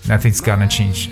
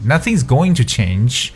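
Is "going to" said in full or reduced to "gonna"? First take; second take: reduced; full. First: Going to is reduced to a single word, gonna. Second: Going to is said in full, two clear words.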